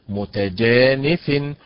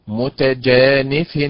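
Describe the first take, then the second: No difference in how they are said.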